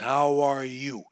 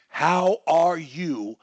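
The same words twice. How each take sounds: First: The words run together as one word. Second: Each word is said separately.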